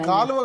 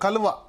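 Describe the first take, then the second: First: The first vowel is long. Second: The first vowel is short. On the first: The speaker calls it wrong. "కాలువ కాదు" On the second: The speaker calls it right.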